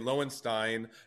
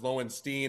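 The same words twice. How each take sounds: First: The name is said the West Coast way. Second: The name is said the East Coast way. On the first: "if you went to California, they would say Lowenstein" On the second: "If you went to New York, it was Lowenstein"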